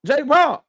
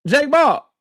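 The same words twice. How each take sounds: The two takes are said the same way.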